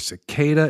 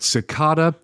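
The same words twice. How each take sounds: First: The word is said the American way. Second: The word is said the British way. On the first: "cicada in the U S" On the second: "cicada in the U K"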